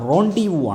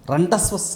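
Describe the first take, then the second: First: Both parts end in vowels, with no s. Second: Both parts end with a clear s sound. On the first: The speaker calls it right. "റോണ്ടി വൂ ആണ് pronunciation" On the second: The speaker calls it wrong. "റണ്ടസ് വസ് അല്ല"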